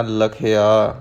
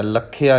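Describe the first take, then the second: First: ਲਖਿਆ said lightly as "la-khi-aa"; soft single kh. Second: ਲਖਿਆ as "lak-khiaa"; hard doubled kh. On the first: Teacher tells learners to read softly, ਲਖਿਆ with light kh. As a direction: keep the kh in ਲਖਿਆ soft and undoubled. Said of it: "ਪੋਲਾ ਪੜ੍ਹਨਾ ਹੈ". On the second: Teacher shows the wrong reading, ਲਖਿਆ with heavy doubled kh. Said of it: "ਲਖਿਆ ਨਹੀਂ ਕਹਿਣਾ". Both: Shown as a demonstration.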